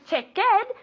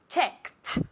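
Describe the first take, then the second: First: It is said with two syllables. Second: It is said with one syllable. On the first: The speaker calls it wrong. "No es checked" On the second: The speaker calls it right. "check tiene una sílaba y en pasado es checked"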